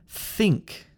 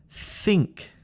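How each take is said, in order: The two takes are said the same way.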